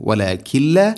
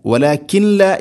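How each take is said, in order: First: "വലാകിൻ ലാ" recited as walakil-la, n absorbed into l; correct merging. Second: "വലാകിൻ ലാ" higher, with the n sounded before the l; mistaken clear n. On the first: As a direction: melt the n of "വലാകിൻ ലാ" into a double l. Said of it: "വലാകിൻ ലാ എന്ന് പറയരുത്". ("വലാകിൻ ലാ" ന് ലാമിൽ ലയിപ്പിച്ച് ഓതുക) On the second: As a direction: demonstrate the error, walakin-la with an audible n in "വലാകിൻ ലാ". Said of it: "എന്ന് പറയരുത്". ("വലാകിൻ ലാ" ന് തെളിച്ച് തെറ്റായി കാണിക്കുക) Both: Shown as a demonstration.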